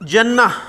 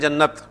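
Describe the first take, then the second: First: The word ends without a final t sound. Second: The word ends with a clear t sound. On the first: This is the Arabic form with the round ta. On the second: This is the usual Urdu form with the long ta.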